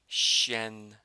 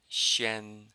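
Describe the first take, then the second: No difference in how they are said.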